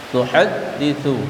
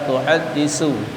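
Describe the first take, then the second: First: The consonant after 'haddi' is a 'th' sound. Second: The consonant after 'haddi' is an 's' sound. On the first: The speaker calls it right. "tapi ta" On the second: The speaker calls it wrong. "bukan tuhaddisu, bukan sin"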